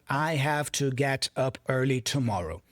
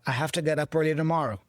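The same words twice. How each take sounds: First: Each word is said fully and separately. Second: The words are reduced and run together.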